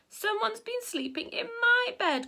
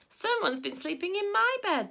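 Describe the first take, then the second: First: It is said in a small, high, squeaky voice. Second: It is said in a medium, middle-pitched voice. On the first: "in a squeaky little voice" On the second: "in a middle-sized voice"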